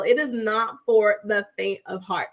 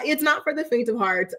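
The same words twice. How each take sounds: First: Firm, deliberate warning on "not for the faint of heart"; emphatic restatement. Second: Said in the usual way. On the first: Real, not acted. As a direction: spell out "it is not" in full, weighting each word. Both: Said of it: "I'm gonna tell y'all".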